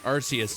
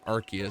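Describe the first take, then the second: First: The C is pronounced softly, like an S. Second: The C is pronounced hard, like a K. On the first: "I pronounce it Arceus" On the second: "how aggressive saying Arceus sounds. It's like you're you're attacking that C really, really hard"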